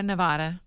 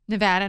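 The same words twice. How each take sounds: First: "Nevada" with the ah of "father"; open-ah middle syllable in "Nevada"; Nevada, outsider way. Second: "Nevada" with the short a of "cat"; flat-a middle syllable in "Nevada"; Nevada, local way. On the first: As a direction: say "Nevada" as nuh-VAH-duh. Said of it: "Other people say Nevada". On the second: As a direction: say "Nevada" as nuh-VAD-uh. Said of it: "Just depends. I say Nevada". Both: Shown as a demonstration.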